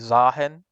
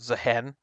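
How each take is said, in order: First: The first vowel sounds like 'ah'. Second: The first vowel sounds like 'eh'. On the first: "if it has two A's, it should be Zahen" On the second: "but I guess you pronounce it Zehen"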